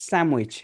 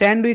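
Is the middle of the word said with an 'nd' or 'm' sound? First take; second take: m; nd. First: The middle is pronounced with an 'm' sound. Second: The middle is pronounced with a full 'nd' sound. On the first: "হয়ে যাবে কি স্যামউইচ" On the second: "স্যান্ডউইচ হয়ে যাবে"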